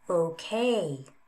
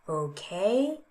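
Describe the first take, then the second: First: The pitch falls and then rises again. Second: The pitch rises across the word. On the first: "Fall, rise"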